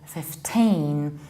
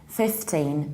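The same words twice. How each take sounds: First: The stress is on the second syllable. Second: The stress is on the first syllable. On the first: The speaker calls it right. "You always stress teen" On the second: The speaker calls it wrong. "then it sounds like fifty"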